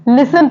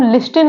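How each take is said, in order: First: लिसन said with a silent t, "lissen"; सही उच्चारण, टी के बिना लिसन; correct pronunciation. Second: लिस्टन with the t sounded, "lis-ten"; गलत उच्चारण, टी बोलकर लिस्टन; wrong pronunciation. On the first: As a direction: drop the t in लिसन. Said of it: "लिसन पढ़ते हैं". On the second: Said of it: "हम लिस्टन नहीं पढ़ते". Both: Shown as a demonstration.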